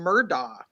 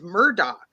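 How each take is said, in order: First: The name ends with an open 'ah' sound. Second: The name ends with an 'och' sound. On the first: The speaker calls it wrong. "I cannot stop myself for whatever reason from calling him Murdaugh" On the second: The speaker calls it right. "it's got like an "och" on the end of it"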